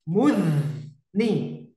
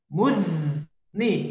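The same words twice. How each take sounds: The two takes are said the same way.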